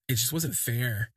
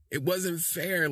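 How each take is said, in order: First: Said in the usual way. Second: Higher swooning repeat. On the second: Real, not acted. Gushing to viewers about his smile, a higher swooning repeat.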